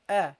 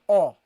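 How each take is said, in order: First: The sound is pronounced lightly and short. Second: The sound is pronounced heavily and full. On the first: The speaker calls it right. "Say uh" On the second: The speaker calls it wrong. "Don't pronounce this heavily. Don't say oh"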